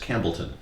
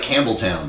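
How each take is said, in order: First: The last syllable is a reduced 'tun'. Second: The last syllable sounds like 'town'. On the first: The speaker calls it right. "but it's Campbellton" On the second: The speaker calls it wrong. "It looks like Campbelltown"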